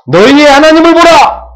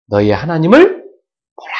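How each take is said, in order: First: High, loud, drawn-out proclamation; full-force shout. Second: Said in the usual way. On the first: Shown as a demonstration. Preacher showing congregation how to cry out, full-force shout. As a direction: cry it out as from a mountaintop. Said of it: "이렇게 외치라니". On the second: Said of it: "외치라니".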